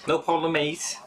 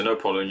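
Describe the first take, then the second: First: Put-on high-pitched Scouse accent; Scouse impression. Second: Said in the usual way. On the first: Replying to a viewer's message, high Scouse impression. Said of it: "I model my Scouse impression off of him".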